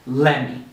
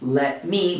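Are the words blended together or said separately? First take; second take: blended; separate. First: The two words are blended into one. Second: The two words are said separately and fully. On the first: "we're going to say let me" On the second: "Instead of saying let me"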